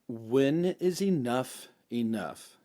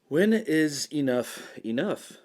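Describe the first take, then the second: First: The voice goes down at the end. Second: The voice does not fall at the end.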